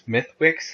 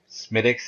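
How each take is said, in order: First: Every letter is pronounced as the name is spelled. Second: It is pronounced differently from how it is spelled. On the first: "like it actually looks like it reads" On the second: "is what it's supposed to be"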